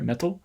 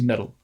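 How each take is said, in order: First: The middle t is a clear stop. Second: The middle t is a soft tap.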